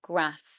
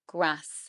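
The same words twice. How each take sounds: First: The vowel is short, in a northern English accent. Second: The same.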